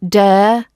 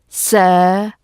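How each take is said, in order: First: The word begins with a d sound. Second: The word begins with an s sound. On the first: "Don't use a d or a s or a v sound instead of this th sound. Not dare" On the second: "Don't use a d or a s or a v sound instead of this th sound"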